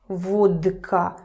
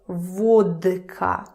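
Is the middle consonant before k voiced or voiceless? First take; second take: voiced; voiced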